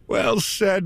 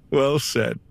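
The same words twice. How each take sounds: First: Said in the usual way. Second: Laughing through the praise. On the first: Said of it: "Well said repeated with laugh". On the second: Acted. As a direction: chuckle as you say it. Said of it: "Well said repeated".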